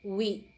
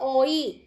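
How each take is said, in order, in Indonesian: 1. Kata itu terdengar seperti wee. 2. Kata itu terdengar seperti oy. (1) "tapi cukup wi" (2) "jangan dibaca oi"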